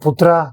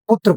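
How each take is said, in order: First: The word ends with an added 'a' vowel. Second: The word ends on a consonant sound. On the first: The speaker calls it wrong. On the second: The speaker calls it right.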